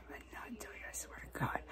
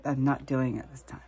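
First: Hushed whisper to herself; whispered vow. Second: Said in the usual way. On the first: Real, not acted. Vowing to herself not to pick the sore, whispered. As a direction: swear it under her breath.

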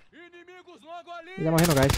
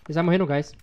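First: High, slow sing-song taunt. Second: Said in the usual way. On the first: Acted. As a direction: tease them in a high drawn-out tune. Sing-song repeat of own line.

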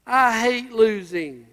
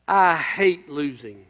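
First: Said in the usual way. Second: A low, slow hint of a sulky whine; whining driver. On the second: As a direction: lightly imitate a sore loser grumbling. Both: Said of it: "this is what he said when he was whining".

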